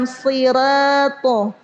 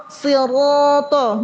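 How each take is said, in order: First: "sirato" slow, with a light open ra; thinned ro. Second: "siroto" slow, with a heavy rounded ro; thick ro. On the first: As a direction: flatten ro to a thin "ra" in sirato. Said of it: "Menipiskan ro". ("sirato" pelan dengan ra ditipiskan) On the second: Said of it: "bukan sirato". ("siroto" pelan dengan ro tebal) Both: Shown as a demonstration.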